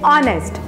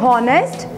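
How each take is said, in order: First: The word starts with no h sound. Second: The word starts with an audible h sound. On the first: The speaker calls it right. "H is silent in this word. So we'll say honest" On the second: The speaker calls it wrong. "It doesn't pronounce like honest"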